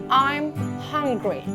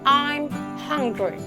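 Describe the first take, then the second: The two takes are said the same way.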